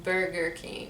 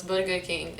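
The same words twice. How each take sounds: First: Burger King with American R sounds. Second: Burger King with tapped, rolled R's; Lebanese rolled R. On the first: Showing what Lebanese don't say, Burger King with American R's. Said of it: "It's not Burger King". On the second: Contrasting with Americans, Burger King with Lebanese rolled R's. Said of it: "we don't have that". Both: Shown as a demonstration.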